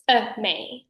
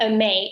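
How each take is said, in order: First: A MAY split, a short gap before the M; separated syllables. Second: A MAY run together, the M shared by both syllables; blended syllables. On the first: Voice coach correcting articulation, A MAY split staccato. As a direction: cut A off, then start MAY on its own. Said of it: "The M only occurs in the". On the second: Voice coach showing what to avoid, A MAY blended together. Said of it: "It's not". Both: Shown as a demonstration.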